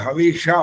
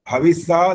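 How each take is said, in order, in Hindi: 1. बीच का व्यंजन मूर्धन्य 'sh' ध्वनि है। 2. बीच का व्यंजन सादा 's' ध्वनि है। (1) "बोलना होता है" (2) "स बोल रहे हो ना, संकट वाला स बोल रहे हो"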